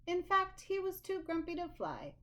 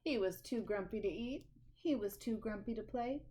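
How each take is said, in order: First: "In fact" pitched higher to build the list; storyteller landing "he was too grumpy to fly" as the topper; emphatic build. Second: Said in the usual way. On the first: A narrator's reading.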